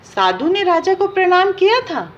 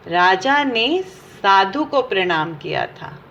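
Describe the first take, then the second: First: Raised questioning pitch on किया, falling at the end; wrong version as a question. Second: Slow, lower, with ने stressed in राजा ने साधु को; slow correction stressing ने. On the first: Teacher quizzing students, raised questioning pitch. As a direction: ask साधु ने राजा को प्रणाम किया था as the wrong option. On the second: Teacher correcting students' answer, slow and stressed on ने. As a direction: spell out the right answer slowly, leaning on ने. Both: Shown as a demonstration. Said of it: "तो ये बिल्कुल गलत है".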